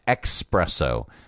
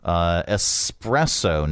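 First: The word starts with a 'ks' sound. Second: The word starts with an 's' sound. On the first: The speaker calls it wrong. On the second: The speaker calls it right.

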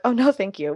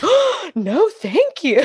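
First: It is said plainly and politely. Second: It is said with lively, pointed intonation. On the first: A simple polite refusal. "I'm just like" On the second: The refusal also shows what the speaker really thinks. "the intonation gets real fun sometimes because I'll still let them know what I'm thinking"

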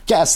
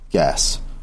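First: The word is said at normal loudness. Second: The word is murmured quietly and low. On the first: The speaker calls it wrong. "so he wouldn't say it like that" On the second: The speaker calls it right. "Gunslinger murmured"

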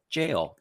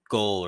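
First: The word begins with a j sound. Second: The word begins with a hard g sound. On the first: The speaker calls it right. "And then I listened to the pronunciation. And it's like jail" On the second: The speaker calls it wrong. "I was going to be like, oh, it's goal or gale or something like that"

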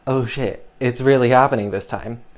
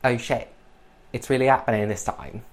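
First: It is said in the speaker's normal voice. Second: It is said in a put-on character voice.

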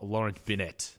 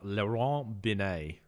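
First: It is said with an Australian accent. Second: It is said with a French accent.

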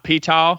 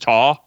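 First: The word starts with a sounded P before T. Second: The word starts with a T, no P sound. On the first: "Not Ptah" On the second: "I'd want to pronounce the P in it, but it's probably just Ta"

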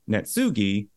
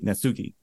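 First: The word is said slower, with dips in pitch. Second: The word is said quickly, evenly and precisely. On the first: "that's the Western way to say it" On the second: "just quicker and just more precise on the nose kind of sounding"

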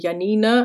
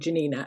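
First: The name is said with a German pronunciation. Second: The name is said without a German pronunciation. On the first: The speaker calls it wrong. "the way I read her name in my German brain clicks in, and I kept wanting to call her Janina" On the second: The speaker calls it right. "but actually she should be called Janina"

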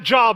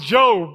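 First: It sounds like the everyday word job. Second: It does not sound like the word job. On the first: The speaker calls it wrong. "His name is not Job" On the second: The speaker calls it right. "it's Job"

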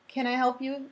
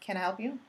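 First: The tone sounds warm and genuinely helpful. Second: The tone sounds suspicious and confrontational. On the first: The listener is being offered assistance. The speaker calls it right. "You look like you need someplace, you're trying to get somewhere" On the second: The listener is being challenged. The speaker calls it wrong. "that first one is going to say, yeah, why?"

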